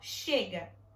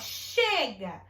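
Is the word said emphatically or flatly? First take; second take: flatly; emphatically. First: It is said flatly, as a plain statement. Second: It is said with tired, emphatic exclamation.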